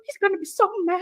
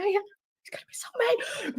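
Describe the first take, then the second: First: Said in the usual way. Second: Slow, much softer, breathless whisper through giggles; whispered laughing. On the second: Real, not acted. A wife giggling quietly so her sleeping husband won't hear. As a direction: whisper it while trying not to laugh.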